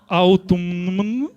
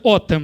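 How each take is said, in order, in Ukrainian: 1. Кожна літера вимовляється, як 'autumn'. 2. Вимовляється як 'otem', літери залишаються німими. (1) "там взагалі ніхіра не читається" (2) "А оце «отем», шарите?"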